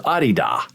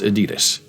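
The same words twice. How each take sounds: First: It is said the German way. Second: It is said the common American way. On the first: The speaker calls it right. "the correct pronunciation is a German company. It is Adidas" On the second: The speaker calls it wrong. "it's not even pronounced Adidas"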